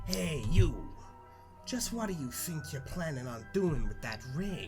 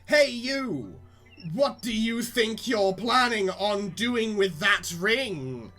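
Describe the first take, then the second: First: It is said in a put-on Columbo voice. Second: It is said in his own normal voice.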